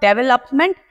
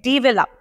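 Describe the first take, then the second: First: The stress falls on the last syllable. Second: The stress falls on the first syllable. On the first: The speaker calls it wrong. "लप के ऊपर आप जो L O P है उस पर stress डाल रहे हो" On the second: The speaker calls it right. "जबकि हमें stress करना है on D E"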